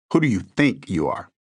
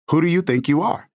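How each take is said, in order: First: The word "think" carries the weight, lower and calm; Who do you "think" you are with "think" stressed. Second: Confrontational challenge. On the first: Shown as a demonstration. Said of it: "Notice the emphasis on the word think". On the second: Retold or imitated. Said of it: "It's a challenge".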